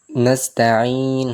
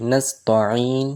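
First: নাস্তাইন slow with a light, clean ত; নাস্তাইন said slowly and correctly; careful slow নাস্তাইন; correct pronunciation. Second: নাস্তাইন with the ত made heavy and wrong; নাস্তাইন said with the mistaken heavy ত; নাস্তাইন in the mispronounced way; wrong pronunciation. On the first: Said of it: "নাস্তাইন হবে". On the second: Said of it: "তো এটাও ভুল". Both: Shown as a demonstration.

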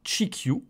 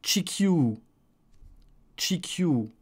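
First: "chikyu" as tchi-kyou, ending short; don't hold the last vowel of "chikyu"; "chikyu" without lengthening; short final u. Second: "chikyu" with a long final ou sound; tchi-kyouu, last vowel stretched; lengthened U. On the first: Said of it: "nous avons pour l'instant". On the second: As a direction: hold the end of "chikyu". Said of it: "c'est un prolongement du u". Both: Shown as a demonstration.

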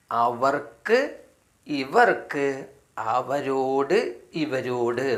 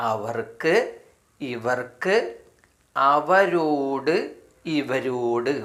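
Both takes have the same delivery.

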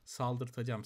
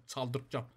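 First: "Saldırtacağım" begun with a clear S; corrected to S. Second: "Çaldırtacağım" begun with a ch sound; mispronounced first sound. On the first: Player corrects his slip, saying "Saldırtacağım" with an S. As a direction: say "Saldırtacağım" with S, not Ç. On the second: Player slips on the word, saying "Çaldırtacağım" with a ch. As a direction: say "Çaldırtacağım" with Ç in place of S. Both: Real, not acted. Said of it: "S ile kullanacaksın".

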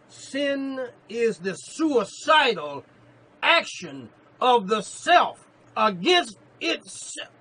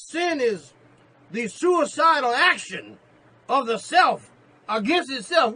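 First: Very slow, loud, drawn-out preaching shout; slow repeated proclamation. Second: Loud, high preaching shout; preaching the quote. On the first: Preacher repeating the quote for his beloved, slow loud shout. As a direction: stretch every word so it sinks in. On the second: Preacher proclaiming Keller's line to the church, loud and high. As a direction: ring the quote out to the congregation. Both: Acted. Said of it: "Allow me to repeat that in your hearing".

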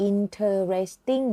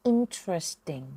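First: "interesting" as in-ter-res-ting; mispronounced four syllables. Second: "interesting" as IN-tres-ting; reduced three syllables. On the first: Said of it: "คำนี้เนี่ยไม่ได้ออกเสียงว่า". (คำว่า "interesting" ออกเสียงผิดเป็นสี่พยางค์ อิน-เทอ-เรส-ติ้ง) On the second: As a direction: drop the middle vowel in "interesting", in-tres-ting. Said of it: "ออกเสียงว่า". (คำว่า "interesting" ออกเสียงสามพยางค์ อิน-เทรส-ติ้ง) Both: Shown as a demonstration.

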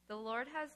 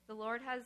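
The two takes are said the same way.

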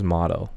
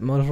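First: Motto said as "MAH-toh", open first vowel; short-O pronunciation. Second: Motto said as "MOH-toh", long O; long-O pronunciation. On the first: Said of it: "I think it's motto". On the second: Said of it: "Is it motto or is motto?". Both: Shown as a demonstration.

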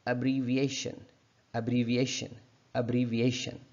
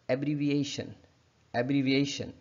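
First: Weak "uh" at the start of एब्रीविएशन; careful uh-bree-viation for एब्रीविएशन; correct schwa opening. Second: Wrong AB opening on एब्रीविएशन; mispronounced एब्रीविएशन. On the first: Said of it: "ए की बजाय अ पढ़ेंगे". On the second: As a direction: open "ab" at the start of एब्रीविएशन. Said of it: "जो कि हम गलत pronounce करते हैं". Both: Shown as a demonstration.

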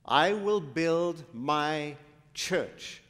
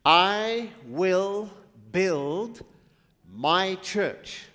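First: "I will build my church" drawn out slowly with "will" stressed; slow, weighty recitation; slow solemn quote. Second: Loud preaching call; proclaimed loudly. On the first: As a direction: savour each word. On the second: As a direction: ring it out to the room. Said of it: "What did he say?". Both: Shown as a demonstration.

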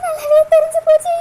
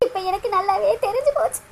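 First: Louder, crying out போச்சு through tears; the repeat bursts out in a wail; louder sobbing. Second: Softly, through tears, தெரிஞ்சு sinking low; quiet sobbing. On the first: Priya alone, grieving her lost love, sobbing louder. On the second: Priya alone, grieving her lost love, quietly sobbing. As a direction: murmur it while weeping, falling away. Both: Acted.

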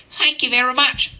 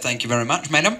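First: Put-on much higher, louder old lady voice; hammed-up little old lady thanks. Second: Said in the usual way. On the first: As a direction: squeak it out like a sweet old lady. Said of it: "said the old lady". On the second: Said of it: "and I said".

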